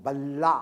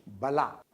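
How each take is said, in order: First: बल्ला with the ल held double; doubled consonant. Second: बला with a short, single ल; single consonant. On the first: Teacher contrasting two words for his class, doubled ल in बल्ला. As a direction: dwell on the ल्ल in बल्ला, stronger. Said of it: "double कर दिया". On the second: Teacher contrasting two words for his class, short ल in बला. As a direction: say बला lightly, the ल not held. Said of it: "तीसरा है दीर्घता". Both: Shown as a demonstration.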